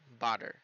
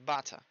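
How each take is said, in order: First: The middle t is a quick tap. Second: The middle t is a clear t. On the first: "en General American debería ser butter" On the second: "en British se dice butter"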